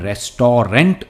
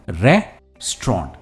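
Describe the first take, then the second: First: The word is said with three syllables. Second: The word is said with two syllables. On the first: The speaker calls it wrong. "हम रेस्टोरेंट नहीं कहते" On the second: The speaker calls it right. "सिर्फ two syllable word है और stress पहले syllable पर है"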